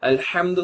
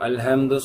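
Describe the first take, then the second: First: The h sound is sharp and harsh. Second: The h sound is soft and blunt. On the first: The speaker calls it right. "ப்ராப்பரா ப்ராக்டிஸ் பண்ணுவோம்" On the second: The speaker calls it wrong. "அல்ஹம்து சொல்லக்கூடாது"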